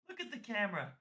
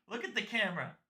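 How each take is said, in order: Both takes have the same delivery.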